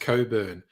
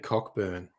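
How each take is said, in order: First: The name is said as Coburn. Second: The name is said as Cockburn. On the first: "That's always pronounced Coburn" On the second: "it's so hard to resist saying Cockburn"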